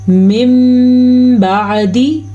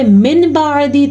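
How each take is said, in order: First: The sound before the b is an m. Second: The sound before the b is an n. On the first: The speaker calls it right. "तो इसे हम पढ़ेंगे" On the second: The speaker calls it wrong. "तो उसने तजवीद का कायदा अदा नहीं किया"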